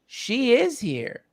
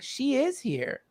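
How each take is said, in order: First: Slow hushed certainty; the teacher gently reassures his grieving guest; slow, gentle quote. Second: Slow, higher and softer, with calm certainty; a sage gently tells the grieving guest her mother is near; slow, soft quote. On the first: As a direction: say it slowly, tenderly, as a simple truth. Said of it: "And he goes". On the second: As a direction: let it land softly and surely. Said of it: "He's like". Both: Retold or imitated.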